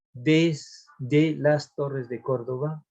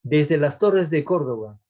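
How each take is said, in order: First: "desde las torres de Córdoba" drawn out syllable by syllable; slow syllable scansion. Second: Said in the usual way. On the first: Shown as a demonstration. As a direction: stretch the line out to count it. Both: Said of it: "a ver, tenemos uno".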